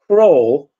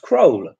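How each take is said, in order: First: The vowel is a long English 'or' sound. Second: The vowel is a short Polish O sound. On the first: The speaker calls it right. "Instead of" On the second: The speaker calls it wrong.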